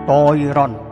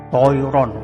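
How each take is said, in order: The two takes are said the same way.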